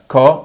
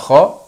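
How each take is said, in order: First: It starts with a plain k sound. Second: It starts with a raspy kh sound. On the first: "وبعض الناس بيقولوها كا" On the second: "في بعض الناس يقولوها خا"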